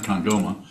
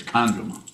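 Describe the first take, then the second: First: Kandroma without the stress on its first syllable; wrong stress demo. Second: Kandroma with emphasis on KAN; first-syllable stress. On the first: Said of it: "It's emphasis on the first syllable. It's not Kandroma". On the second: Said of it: "It's emphasis on the first syllable". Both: Shown as a demonstration.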